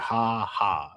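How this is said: It sounds like a sarcastic, contemptuous laugh. The other person is mocked for a bad joke. The speaker calls it right. "It has to be ha ha. Like you're you're a bitch"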